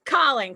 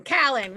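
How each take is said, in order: First: CALLING with a rounded aw vowel; loud, falling CALLING with open-o first syllable; pronouncing CALLING. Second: CALLING with a short a, as "cal-ing"; CALLING with vowel as in cat; alternate CALLING pronunciation. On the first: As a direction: say CALLING as "cawling". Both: Shown as a demonstration. Two pronunciations of her name.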